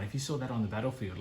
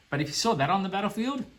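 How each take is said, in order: First: Said in the usual way. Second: High, fast and louder; fired-up repeat about the battlefield; excited retake. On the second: Real, not acted. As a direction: say it again with excitement.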